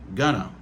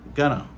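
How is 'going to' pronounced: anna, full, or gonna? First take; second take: gonna; gonna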